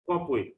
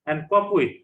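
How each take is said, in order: First: Said in the usual way. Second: Cope punched loud, "COPE with"; teacher modelling cope with for the class; model pronunciation. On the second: Shown as a demonstration. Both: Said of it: "try to pronounce the words correctly".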